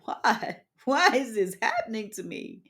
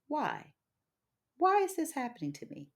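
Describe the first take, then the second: First: It sounds self-pitying and complaining. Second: It sounds calm, curious and reflective. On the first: The asker feels like a victim. The speaker calls it wrong. "So instead of saying" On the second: The asker is open to learning. The speaker calls it right. "a redirection in thought and spirit"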